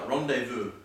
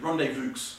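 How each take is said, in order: First: The word is said the standard way. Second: The word is sounded out as spelled.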